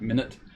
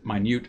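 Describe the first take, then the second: First: The stress is on the first syllable. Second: The stress is on the second syllable. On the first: The speaker calls it wrong. "not minute" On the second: The speaker calls it right. "it is minute"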